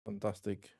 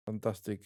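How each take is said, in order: Both takes have the same delivery.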